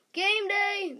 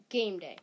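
First: High, loud stadium call of "Game Day!"; booming announcer shout; announcer yell. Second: Said in the usual way. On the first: Acted. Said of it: "the announcer yells". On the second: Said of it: "Chapter three".

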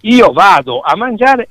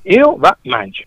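First: Said in the usual way. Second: "io va mangio" said high in dialect; Sicilian dialect. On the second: Shown as a demonstration. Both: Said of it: "È una regola".

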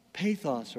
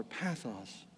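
First: "Pathos" with long a, as in pay; long-a pronunciation. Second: "pathos" with short a, as in path; short-a pronunciation. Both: Shown as a demonstration. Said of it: "Pathos or pathos".

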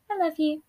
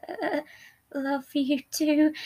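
First: Higher, tender endearment; caressing. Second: Slow, hesitant, shaky reply. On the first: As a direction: coo it like a soothing lover. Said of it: "He caressed Deceit's chin as he said". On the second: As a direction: falter through the endearment. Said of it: "responded with a shaky voice". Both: A narrator's reading.

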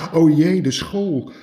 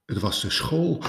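First: High, loud alarmed cry, then falling; panicked gasp. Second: Said in the usual way. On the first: Acted. Rabbit hearing his daughter is missing, alarmed and high. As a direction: blurt it out in sudden alarm. Konijn panics over phone call. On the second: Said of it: "narration before exclamation".

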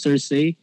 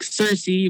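First: "Cersei" ending in SAY; sur-SAY for "Cersei"; imitated Cersei pronunciation. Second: "Cersei" ending in SEE; SUR-see for "Cersei"; preferred Cersei pronunciation. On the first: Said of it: "one of you three, um, pronounce it as Cersei". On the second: Shown as a demonstration. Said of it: "pronounce it as Cersei".

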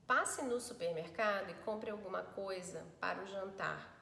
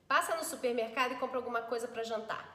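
First: Said in the usual way. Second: Quick, brushed-off order; curt "whatever" reading; dismissive. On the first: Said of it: "eu vou fazer com a entonação do WhatsApp". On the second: Shown as a demonstration. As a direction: rattle it off like you couldn't care less. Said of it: "Dane-se".

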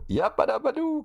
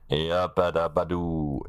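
First: High, squealing cartoon catchphrase; Fred Flintstone catchphrase. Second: Slow, drawn-out cartoon catchphrase; lightly voiced cartoon caveman; Fred Flintstone catchphrase. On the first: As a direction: belt it out like a cartoon caveman. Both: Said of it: "Fred Feuerstein war das".

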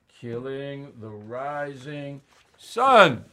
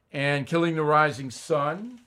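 First: "Killing the Rising Sun" drawn out slowly, each word weighted; slow emphatic title. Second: Said in the usual way. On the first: Shown as a demonstration. Host plugging his book to listeners, slow emphatic title.

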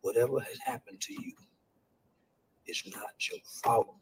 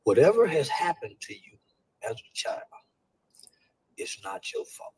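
First: Softer and whispered throughout; quiet whispered comfort; hushed reassurance. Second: Starts plain and drops to a whisper; gentle reassurance fading into a whisper; soft reassurance. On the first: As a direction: keep it hushed and tender for a hurt child. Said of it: "That's one of the first things I want kids to know". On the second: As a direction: ease into a hush as if telling a child. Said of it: "this is what I said". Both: Shown as a demonstration.

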